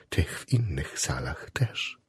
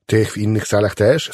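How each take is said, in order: First: Very soft, low, slow echo; hushed confirmation. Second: „Tych w innych salach też?” asked in full voice, rising on „też”; rising question. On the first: Chaplain confirms to the patient he visits other wards, hushed. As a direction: repeat it slowly, almost whispering. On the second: Patient queries chaplain, „Tych w innych salach też?” as a rising question. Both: A narrator's reading.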